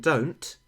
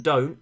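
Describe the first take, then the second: First: "don't" with a crisp final T; sounded final T. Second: "don't" with the final T swallowed; soft final T. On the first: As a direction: enunciate the T ending "don't". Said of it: "I've just demonstrated that we don't actually do that". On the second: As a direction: say "don't" casually, dropping its T. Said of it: "in Australian you will have soft letters". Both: Shown as a demonstration.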